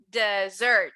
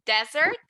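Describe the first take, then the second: First: DesSERT with the second syllable falling; dessert with the weight at the end; stress on the last syllable. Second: Desert with the weight on DE, the wrong word here; stress on the first syllable. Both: Shown as a demonstration. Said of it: "The emphasis is at the end".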